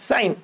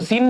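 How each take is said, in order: First: The vowel is an eye sound. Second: The vowel is a long ee sound. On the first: The speaker calls it right. "सीन नहीं साइन" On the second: The speaker calls it wrong. "सीन मत पढ़ो"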